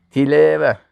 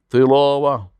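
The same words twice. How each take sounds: First: تلاوه with a light t and front e vowels; thin, plain t in تلاوه. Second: تلاوه with a heavy ط and dark a vowels; dark rounded تلاوه. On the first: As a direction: say تلاوه thinly, like tileeve. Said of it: "اما به تی". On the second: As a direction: say تلاوه thickly, like tilaawa with emphatic t. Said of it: "به تا". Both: Shown as a demonstration.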